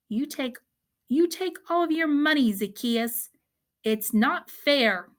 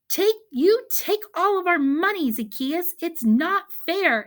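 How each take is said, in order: First: It is said softly and calmly. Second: It is said loudly with excitement.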